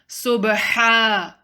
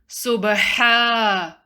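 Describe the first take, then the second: No difference in how they are said.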